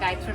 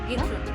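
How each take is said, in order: First: The first vowel sounds like 'eye'. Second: The first vowel sounds like 'ee'. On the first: This is the speaker's own way of saying it. "আমার উচ্চারণে গাইট্রন" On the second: This is the local way of saying it. "কি আসল উচ্চারণ"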